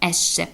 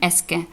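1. 'sc' звучить як м'яке 'sh'. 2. 'sc' звучить як твердий 'sk'. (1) "Ми читаємо esce, тому що es C і E" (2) "ми не читаємо esce"

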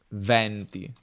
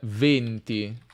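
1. La vocale tonica è una E aperta. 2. La vocale tonica è una E chiusa. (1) "Mentre venti come winds" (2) "venti si pronuncia con una E chiusa"

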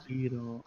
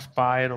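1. La prima vocale suona come 'ee'. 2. La prima vocale suona come 'eye'. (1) "poi c'è chi dice" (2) "nel gioco lo chiama Spyro"

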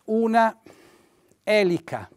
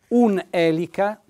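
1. La vocale finale di una viene pronunciata per intero. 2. La vocale finale di una viene elisa. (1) "Io posso scrivere una elica" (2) "in realtà noi diciamo un elica"

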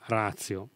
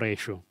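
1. La parola si pronuncia alla maniera latina. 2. La parola si pronuncia alla maniera americana. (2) "gli americani dicono ratio"

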